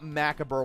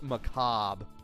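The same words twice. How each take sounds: First: The word is said with the childhood pronunciation. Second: The word is said with the adult pronunciation. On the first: This is how it was believed to sound as a kid. The speaker calls it wrong. "not Macabre like what I thought it was pronounced like as a kid" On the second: This is how the word is actually pronounced. The speaker calls it right. "It's Macabre"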